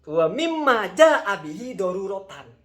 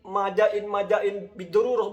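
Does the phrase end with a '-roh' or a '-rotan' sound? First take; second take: -rotan; -roh. First: The phrase is clearly read and ends in '-rotan'. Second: The phrase is slurred and ends in '-roh'. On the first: The speaker calls it right. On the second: The speaker calls it wrong.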